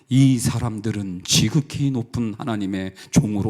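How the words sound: It is read in a reverent, holy tone.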